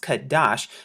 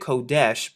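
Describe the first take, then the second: First: The first vowel sounds like 'ah'. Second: The first vowel sounds like 'oh'. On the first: This is the restored reading. The speaker calls it right. "in the restored translation, it's pronounced Kadash" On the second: This is the common reading. The speaker calls it wrong. "they pronounce it Kodesh"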